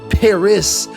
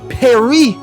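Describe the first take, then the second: First: Paris is said with an American accent. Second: Paris is said with a French accent. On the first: The speaker calls it wrong. "you Americans with your awful harsh grating accents" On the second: The speaker calls it right. "will you learn to speak as we do"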